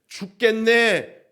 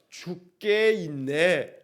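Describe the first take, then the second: First: The phrase is said quickly and run together. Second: The phrase is said slowly with parts separated. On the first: Life is so hard it feels like dying. The speaker calls it wrong. "빠르게 말하면 죽겠네가 됩니다" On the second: One will not die but keep living. The speaker calls it right. "천천히 하면"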